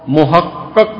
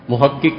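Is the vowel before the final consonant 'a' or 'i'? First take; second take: a; i. First: The vowel before the final consonant is 'a'. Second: The vowel before the final consonant is 'i'. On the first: A thing that has been proven. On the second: A person who has researched the matter.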